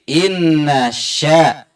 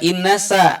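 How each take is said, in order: First: The second word starts with an sh sound. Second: The second word starts with a plain s sound. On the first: The speaker calls it right. "tetapi inna sya" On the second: The speaker calls it wrong. "Bukan inna sa"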